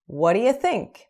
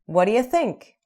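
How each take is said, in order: First: The words run together into one linked chunk. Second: The same.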